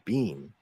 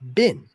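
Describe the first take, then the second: First: The word sounds like 'bean' with a long vowel. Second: The word sounds like 'bin' with a short vowel. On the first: This is the British way of saying it. The speaker calls it wrong. "they still say the word bean" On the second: This is the American way of saying it. The speaker calls it right. "he said B E E N as bin"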